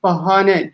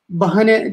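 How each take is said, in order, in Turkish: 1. Orta ünlü uzatılmıştır. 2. Orta ünlü kısadır. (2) "demiyoruz hiçbirimiz"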